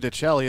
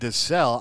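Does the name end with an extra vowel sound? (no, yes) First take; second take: yes; no. First: The name ends with an added final vowel. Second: The name ends on a consonant, no final vowel. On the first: The speaker calls it wrong. "I've been calling Kenny DeCell, Kenny DeCelli" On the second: The speaker calls it right. "It's actually DeCell"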